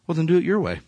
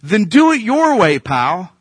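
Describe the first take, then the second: First: God's calm verdict. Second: Higher and louder, a sharp offhand dismissal; dismissive God. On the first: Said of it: "Here's what God says". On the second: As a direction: toss it off with a cocky edge. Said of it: "God's like". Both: Acted.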